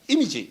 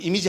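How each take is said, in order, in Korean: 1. 강세는 첫 음절에 있어요. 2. 강세는 첫 음절에 있지 않아요. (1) "액센트가 앞에 들어가죠" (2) "미국 사람들은 이미지 하면 무슨 말인지 모릅니다"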